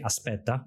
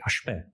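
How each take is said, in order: First: It is said with a standard Italian accent. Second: It is said with a Neapolitan accent. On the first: "I don't say aspetta" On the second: "I say aspetta. And that, that is a, a legacy of my best friend who, uh, the Neapolitans are very hardcore"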